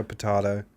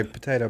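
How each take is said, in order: First: "potato" with a broad ah, po-TAH-to; contrasted pronunciation. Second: "potato" with an ay, po-TAY-to; contrasted pronunciation. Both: Shown as a demonstration. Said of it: "when so people say potato".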